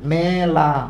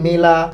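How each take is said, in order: First: The first vowel is an open ae sound. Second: The first vowel is a close e sound. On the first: The speaker calls it right. "আমরা কি বলি, মেলা" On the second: The speaker calls it wrong. "এইগুলো তো বলি না"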